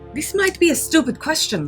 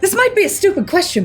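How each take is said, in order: First: It is said in a plain, ordinary voice. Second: It is said in a big, boisterous put-on voice.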